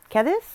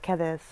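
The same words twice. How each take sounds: First: "Cadiz" lifted high into a question; unsure pronunciation. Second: Said in the usual way. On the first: Real, not acted. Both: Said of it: "I think is how you pronounce it".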